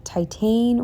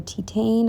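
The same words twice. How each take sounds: First: Titane said as "tie-TANE"; tentative pronunciation. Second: Titane said as "tee-TANE"; alternative pronunciation. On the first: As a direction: try Titane with an "eye" vowel first. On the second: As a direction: try Titane with an "ee" vowel first. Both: Shown as a demonstration. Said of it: "I think it's pronounced".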